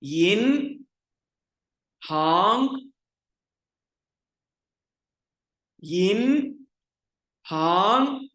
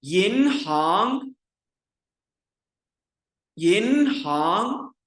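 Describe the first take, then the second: First: यिन and हांग said apart, each rising and louder; syllables separately. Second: यिन हांग blended, slow and louder, two rises; teacher reading the word as one; joined together. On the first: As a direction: pause between syllables. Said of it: "अलग-अलग बोलते हैं". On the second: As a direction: link the syllables smoothly. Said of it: "मिला के लफ्ज को पढ़ते हैं". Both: Shown as a demonstration.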